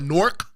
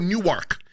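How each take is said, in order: First: It is said as one syllable, like locals. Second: It is said with two syllables, like outsiders.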